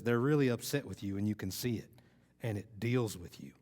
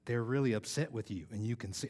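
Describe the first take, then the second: First: Lightly imitated Texas Southern accent; attempted Southern accent. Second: Said in the usual way. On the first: Speaker quoting a Texas truck-contest competitor, in an attempted Southern accent. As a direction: try on a mild Southern twang. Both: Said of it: "I'm gonna try my Southern accent".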